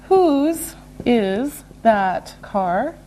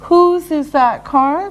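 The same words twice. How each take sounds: First: One word at a time; slow and deliberate. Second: Said in the usual way. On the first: Shown as a demonstration. Teacher modelling a possession question, slow and separated. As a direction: stretch out each word with gaps.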